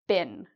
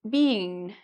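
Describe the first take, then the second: First: The vowel is a short sound. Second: The vowel is a long E sound. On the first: The speaker calls it right. "it's more like been. Okay, so it's a bit shorter" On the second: The speaker calls it wrong. "where they try to make it a long E"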